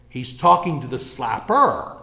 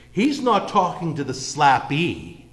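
First: "slapper" hit as the answer, slow and firm; slow, deliberate, "slapper" weighted; stress on slapper. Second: "slappee" leaned on, slowed, set against "slapper"; slow, deliberate, "slappee" weighted; stress on slappee. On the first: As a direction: drive home "slapper" as the real target. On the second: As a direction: land on "slappee" as the word being ruled out. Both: Shown as a demonstration.

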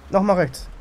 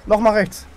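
The two takes are said the same way.

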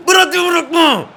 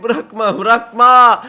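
First: Very high, full-force yell; real scream. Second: Loud, high urgent order; shouting. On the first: Player screams at defender to hold on, all-out shout. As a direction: scream the order at the top of your voice. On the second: Player tells defender not to let go, urgent shouting. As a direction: yell the command to a defender, building. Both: Real, not acted. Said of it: "Öyle bağırınca tuttu bak".

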